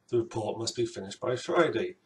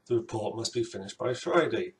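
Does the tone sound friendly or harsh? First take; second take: friendly; friendly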